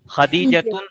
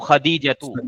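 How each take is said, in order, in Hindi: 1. नाम के आखिर में एक अतिरिक्त 'n' ध्वनि जुड़ी है। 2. नाम स्वर पर खत्म होता है, 'n' के बिना।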